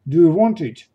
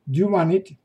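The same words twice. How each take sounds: First: Every word is said fully and separately. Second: The words are reduced and run together. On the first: "фраза «do you want it» произносится как" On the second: "произносится как"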